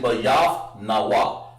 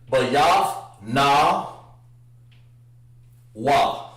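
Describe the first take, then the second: First: The word flows together as one sound. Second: The word is split into separate, paused parts. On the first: The speaker calls it right. "So it's actually" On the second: The speaker calls it wrong. "You don't want to break it up like that"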